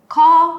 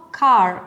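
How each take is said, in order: First: "car" as a long "cah"; British car, silent R. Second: "car" ending in a clear R; American car, R sounded. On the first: Teacher contrasting accents, car without its R. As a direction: leave the R off "car". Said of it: "la R en uno no aparece". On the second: Teacher contrasting accents, car with its R. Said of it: "y en la otra no". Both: Shown as a demonstration.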